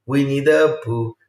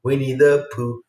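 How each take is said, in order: First: Winnie the Pooh spelled out slowly; deliberate slow correction; slow, careful naming. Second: Said in the usual way. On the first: Shown as a demonstration. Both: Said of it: "Pooh with an H at the end".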